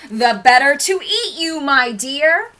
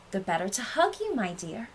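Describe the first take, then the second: First: Loud, high, rising pounce; wolf's menacing cry. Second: Restrained, coaxing fake-granny reply; wolf posing as Granny. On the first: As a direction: cry it out big as the disguise drops. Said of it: "cried the wolf". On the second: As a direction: keep it contained and sweetly reassuring. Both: A narrator's reading.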